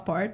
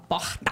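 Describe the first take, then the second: First: It is said without the Carioca accent. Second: It is said with a Carioca accent.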